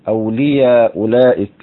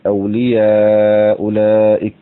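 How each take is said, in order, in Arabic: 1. يُمَدّ حرف المد قصرًا، حركتين. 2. يُمَدّ حرف المد توسطًا، أربع حركات. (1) "نقدم القصر على التوسط" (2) "نقدم القصر على التوسط"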